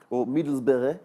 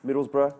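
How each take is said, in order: First: Accidental slip into a Dutch accent. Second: Said in the usual way. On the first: Real, not acted. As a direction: say the place name with a Dutch accent. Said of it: "said that in a Dutch accent". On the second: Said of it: "I don't know why".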